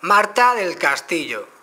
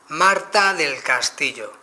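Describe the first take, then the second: First: "Marta del Castillo" said slowly and loudly to the phone; clear loud dictation. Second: "Marta del Castillo" slow, louder, well articulated; careful clear dictation. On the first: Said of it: "decirlo claro y alto". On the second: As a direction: dictate it slowly and clearly into the mic. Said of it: "Es recomendable siempre vocalizar". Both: Shown as a demonstration.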